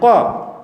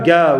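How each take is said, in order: First: It starts with a deep throat q sound. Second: It starts with a hard g sound. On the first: This is how it was revealed. The speaker calls it right. "on le dit qa" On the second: This is the spoken dialect form. The speaker calls it wrong. "On ne dit pas ga"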